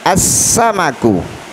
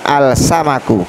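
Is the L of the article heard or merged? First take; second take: merged; heard. First: The article's L merges into a doubled s. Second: The article's L is clearly pronounced before s. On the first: The speaker calls it right. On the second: The speaker calls it wrong.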